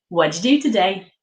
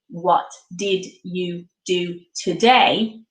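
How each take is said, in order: First: The words run together into one reduced phrase. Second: Each word is said separately and clearly. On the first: The speaker calls it right. "we run our words together" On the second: The speaker calls it wrong. "which makes me sound a little bit static and a little bit like a robot"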